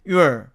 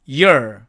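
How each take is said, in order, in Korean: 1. y 뒤의 모음은 분명한 oo 소리입니다. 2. y 뒤의 모음은 약한 uh 소리입니다. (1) "남은 것이 your" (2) "우가 또 어로 변해서"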